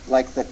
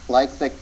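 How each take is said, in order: The two takes are said the same way.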